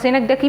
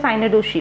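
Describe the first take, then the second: First: The word ends with a 'kee' sound. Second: The word ends with a 'shee' sound. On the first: "सिनेक्डकी भी कह सकते हो" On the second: "बहुत से लोग pronounce करते हैं साइनेडोशी"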